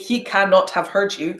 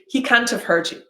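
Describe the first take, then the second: First: The word 'cannot' is said in full. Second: The word 'cannot' is contracted to 'can't'. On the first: The speaker calls it wrong. "I don't say" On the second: The speaker calls it right. "I say"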